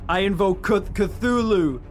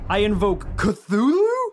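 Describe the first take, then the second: First: It is said firmly, with confidence. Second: It is said hesitantly, without confidence. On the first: The speaker calls it right. "with more confidence" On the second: The speaker calls it wrong. "I should deliver that with more confidence"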